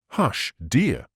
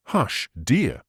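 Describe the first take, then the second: First: Remonstrating. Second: Anxious cry. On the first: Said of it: "Lucy remonstrated". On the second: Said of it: "cried Lucy". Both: A narrator's reading.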